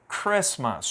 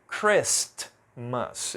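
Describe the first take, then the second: First: The t sound in the middle is silent. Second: The t sound in the middle is pronounced. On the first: The speaker calls it right. "Eu não pronunciei essa letra T" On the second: The speaker calls it wrong. "eu não falei Christmas"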